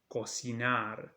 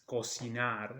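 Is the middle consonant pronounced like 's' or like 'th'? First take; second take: s; s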